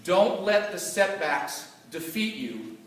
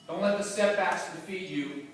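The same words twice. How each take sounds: First: "Don't" pressed hard, slow and deliberate; stress on DON'T. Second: "let" carries the weight, at normal speed; stress on LET. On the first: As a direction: drive home the word "Don't", slowly. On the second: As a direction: lean on "let", not on "Don't". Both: Shown as a demonstration.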